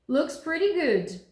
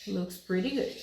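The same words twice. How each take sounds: First: Raised, slow "Looks pretty good"; questioning lift. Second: Said in the usual way. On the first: Shown as a demonstration. Teacher lifts the phrase to sound like a question. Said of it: "como é que a gente sabe que isso é uma pergunta". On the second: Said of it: "Isso é uma afirmação".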